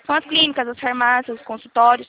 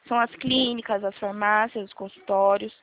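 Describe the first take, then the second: First: It is spoken at a normal, quicker pace. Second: It is spoken slowly and deliberately.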